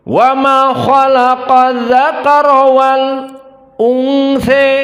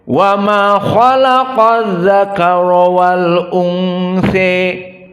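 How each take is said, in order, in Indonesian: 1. Ada henti singkat di antara wal dan unsa. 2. Wal dan unsa dibaca bersambung tanpa jeda. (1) "antara alif lam dengan hamzah sakt, maknanya berhenti sejenak" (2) "hamzahnya tahqiq"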